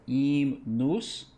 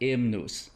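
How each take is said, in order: First: The first vowel sounds like 'eh'. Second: The first vowel sounds like 'ih' in hymn. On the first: The speaker calls it right. "we sing the E there" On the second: The speaker calls it wrong. "not the hymnus. Not like a hymn"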